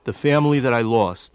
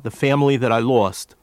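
Both takes have the same delivery.

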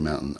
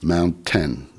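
First: The T in the middle is dropped. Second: The T in the middle is pronounced. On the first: This is the local Philadelphia way. "I still say mountain" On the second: This is the way outside Philadelphia. "it's hard for me to say, mountain"

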